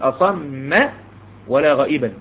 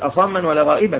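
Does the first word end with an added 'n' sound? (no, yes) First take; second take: no; yes. First: The first word ends without an added n sound. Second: The first word ends with an added n sound. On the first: The speaker calls it right. "تقول اصم ولا غائبا" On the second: The speaker calls it wrong. "يبقى ما تقوليش اصما ولا غائبا"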